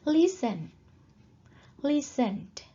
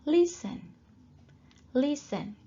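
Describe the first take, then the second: No difference in how they are said.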